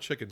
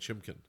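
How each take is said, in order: First: The middle consonant is a clear k sound. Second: An m sound is slipped in before the k. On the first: "I call chicken" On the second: "I call chicken chimkin"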